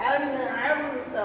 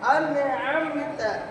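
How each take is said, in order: Both takes have the same delivery.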